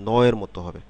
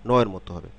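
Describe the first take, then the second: No difference in how they are said.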